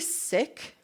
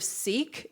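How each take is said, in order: First: The word has a short vowel, like sick. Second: The word has a long vowel, like seek. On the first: This is how a member of the faith says it. "it's actually sick" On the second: This is the usual outsider's way of saying it. "instead of seek"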